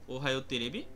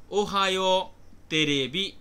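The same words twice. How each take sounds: First: Said in the usual way. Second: Ohio তেরেবি said slowly and louder, each syllable laid out; careful model pronunciation. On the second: Shown as a demonstration. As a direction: spell out Ohio তেরেবি slowly and clearly for the class. (ধীরে, জোরে, স্পষ্ট উচ্চারণে Ohio তেরেবি) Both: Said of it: "একটি টেলিভিশনের কাল্পনিক নাম".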